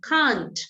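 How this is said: It is said with a British accent. "en británico sería can't"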